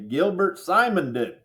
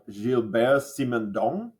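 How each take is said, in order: First: The name is said with a Midwestern accent. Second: The name is said with a French accent.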